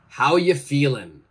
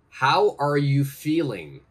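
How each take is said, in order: First: The word are is dropped in relaxed speech. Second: Every word is said in full, including are. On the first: "the correct American pronunciation" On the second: "Please change that to the correct American pronunciation"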